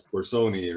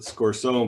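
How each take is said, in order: First: The name is said the original Italian way. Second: The name is said the Americanized way. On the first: This is how the name was probably said originally. "I think it's like Scorsoni or something" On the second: This is how the family name is said now. "my last name's been Americanized too"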